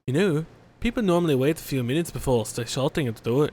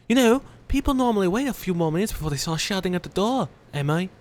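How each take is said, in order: First: British attempt slipping into Cockney; failed British accent. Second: Higher-pitched British mother, hammed up; British accent. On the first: Player attempting the mother's voice, botched Cockney-British accent. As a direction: try British and land on rough Cockney. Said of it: "that's not even close to British. That's a Cockney accent". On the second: Mother answering shouting at her door, put-on British accent. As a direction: scold lightly in an amateur British accent. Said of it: "I think I found the British".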